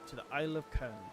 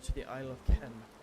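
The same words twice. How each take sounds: First: The voice is plain and not raspy. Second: The voice is rough and raspy. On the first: The speaker calls it wrong. "that's not the voice he had" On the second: The speaker calls it right. "He has more of a raspy voice"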